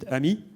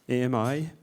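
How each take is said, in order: First: It is said as one French word, ami. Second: It is spelled out as three separate letters.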